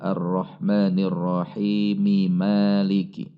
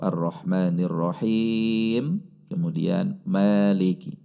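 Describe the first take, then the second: First: Rahim runs straight into Maliki. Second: There is a stop after Rahim. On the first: The verses are recited joined. "Kalau mau diwasal" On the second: The verses are recited separately. "Kalau mau diwakaf"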